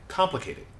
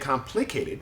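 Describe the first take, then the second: First: The middle vowel is reduced to a schwa. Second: The middle vowel is a full, clear vowel. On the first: The speaker calls it right. "the middle syllable becomes a schwa sound" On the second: The speaker calls it wrong. "We don't say complicated"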